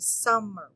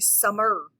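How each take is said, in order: First: The stress is on the first syllable. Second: The stress is on the second syllable.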